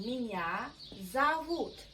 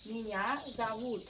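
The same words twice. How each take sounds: First: Зовут said as zavut, with the unstressed o as a; Меня зовут with a for o. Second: Меня зовут said smoothly at normal speed; Меня зовут run together naturally; Меня зовут, plain model; model phrase. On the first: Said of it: "we pronounce O without stress, like A". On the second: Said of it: "That's why we say". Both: Shown as a demonstration.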